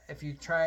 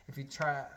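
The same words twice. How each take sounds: First: "if you try" luider herhaald; louder repeat. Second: Said in the usual way. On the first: Shown as a demonstration. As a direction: say it again, louder.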